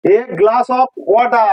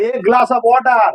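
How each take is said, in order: First: A glass of water, drawn out word by word; teacher slowing a glass of water to a crawl; very slow demo. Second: Slow model phrase. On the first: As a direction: spell out a glass of water very slowly for learners. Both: Shown as a demonstration. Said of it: "দেখো a glass of water".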